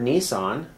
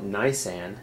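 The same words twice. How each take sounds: First: "Nisan" said as nee-SAHN; Nissan pronunciation. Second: "Nisan" said as NYE-san; their pronunciation. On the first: Host giving the familiar version of the Hebrew word, "Nisan" as nee-SAHN. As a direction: say "Nisan" with a first syllable like "knee". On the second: Host showing how they pronounce the Hebrew word, "Nisan" as NYE-san. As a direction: say "Nisan" with a long i, rhyming with "nigh". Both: Shown as a demonstration. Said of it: "or as they pronounce it".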